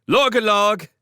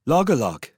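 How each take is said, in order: First: High, loud call across the river; shouted call. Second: Said in the usual way. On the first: Acted. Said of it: "stood on the bank and shouted".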